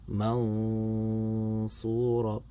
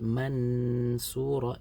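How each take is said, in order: First: The n is hidden with a held nasal sound. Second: The n is pronounced fully and clearly. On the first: The speaker calls it right. "So here is the way we read it" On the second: The speaker calls it wrong. "If I say mansura, it becomes idhar"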